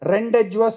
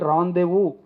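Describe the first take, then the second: First: Every written letter is sounded out, including d and s. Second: It sounds like ron-day-voo, with silent letters dropped. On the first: The speaker calls it wrong. "నేనే రెండెడ్జ్వర్స్ అనేసా, ఏదో తెలుగులో మాట్లాడినట్టుగా" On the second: The speaker calls it right. "దాన్ని పలకాల్సింది రాందేవు అని పలకాలి"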